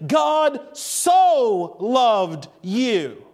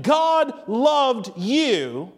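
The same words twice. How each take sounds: First: Very slow, "so" stretched long before "loved"; each word apart, weight on "so"; intensified so loved. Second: Slow, even "God loved you", no intensifier; spaced words, "you" left hanging; statement without so. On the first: Preacher contrasts two statements, heavy stress on so. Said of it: "much different than the statement". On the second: Preacher contrasts two statements, slow simple statement. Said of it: "you're moving the emphasis to something different". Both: Shown as a demonstration.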